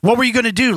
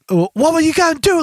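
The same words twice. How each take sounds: First: It is said in a plain American accent. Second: It is said in a put-on British accent. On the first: The speaker calls it wrong. "My English accent, like how I talk" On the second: The speaker calls it right. "It's fucking British accent"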